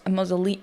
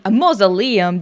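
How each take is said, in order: First: "mausolea-" broken off midword; cut-off mispronunciation. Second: "mausoleum" said in full, a touch louder, falling; corrected pronunciation. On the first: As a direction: start "mausolea-" then stop short. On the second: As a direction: get "mausoleum" right and land it. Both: Real, not acted.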